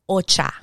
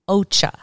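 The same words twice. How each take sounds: First: It is said with a Spanish accent. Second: It is said with an English accent.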